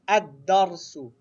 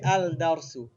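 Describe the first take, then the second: First: The article's l is silent; d is doubled. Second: The article's l is heard before d. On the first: The speaker calls it right. "you don't pronounce the Lam, you pronounce the letter twice" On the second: The speaker calls it wrong. "We don't say Al-Darsu"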